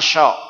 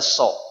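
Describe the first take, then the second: First: The syllable starts with a sh sound. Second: The syllable starts with a plain s sound. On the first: The speaker calls it wrong. "Jangan syo" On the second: The speaker calls it right. "Sudah saja baca so"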